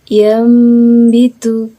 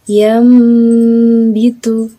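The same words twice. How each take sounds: No difference in how they are said.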